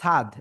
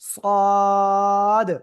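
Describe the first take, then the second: First: The letter name is said with a light sound. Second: The letter name is said with a heavy sound. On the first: The speaker calls it wrong. "সাদ বললে হবে না" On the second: The speaker calls it right. "একটু মোটা আওয়াজে"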